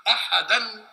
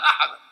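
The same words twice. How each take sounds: First: أحدا with tanween, ahadan, higher and louder; connected ending. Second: أحدا stopped as ahadaa, high and loud; pausal ending. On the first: Teacher reciting a sura's last word joined to the next, connected ending. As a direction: say أحدا as ahadan, running on into the basmala. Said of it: "إنما على الوصل". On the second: Teacher showing what you say when stopping, pausal ending. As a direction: end أحدا on an open long aa, no n. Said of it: "لما تقف تقول أحدا". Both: Shown as a demonstration.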